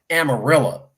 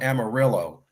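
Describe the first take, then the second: First: The name is pronounced the local Texan way. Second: The name is pronounced the Californian way. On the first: It is how the locals say the name. The speaker calls it right. "that's not how you pronounce it. That might be how you spell it. It's called Amarillo" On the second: It follows how the name is spelled. The speaker calls it wrong. "over in California, we call it Amarillo"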